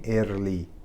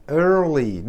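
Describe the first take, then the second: First: Early with a flat Persian r, said slowly; wrong early. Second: Early with a curled r; correct early. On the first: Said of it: "نگیم early". (early را با ر فارسی بگو) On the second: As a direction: say early with an American r. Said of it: "مثل early". (early را با آر آمریکایی بگو) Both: Shown as a demonstration.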